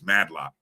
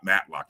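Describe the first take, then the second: First: The middle consonant is a d sound. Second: The middle consonant is a t sound. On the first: The speaker calls it right. "it's Madlock" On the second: The speaker calls it wrong. "He's not Matlock"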